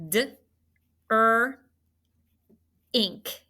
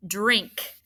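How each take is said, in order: First: "drink" in three parts, d, er, "ink"; sounded out. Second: Said in the usual way. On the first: Shown as a demonstration. Teacher helping students spell the last word, "drink" sounded out. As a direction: separate "D" and "er", keep "ink" glued. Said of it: "That's a glued sound". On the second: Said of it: "the last word that we're going to mark".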